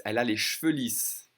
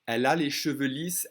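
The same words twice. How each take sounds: First: Cheveux squeezed to one syllable "shveu"; dropped E. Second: Higher and louder, cheveux in two syllables "sheu-veu"; careful full pronunciation. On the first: Teacher repeating straight hair in casual form, dropped E. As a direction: say cheveux without its first E. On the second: Teacher introducing straight hair to learners, careful full pronunciation. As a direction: sound the first E in cheveux. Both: Shown as a demonstration. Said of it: "I'm gonna drop that E".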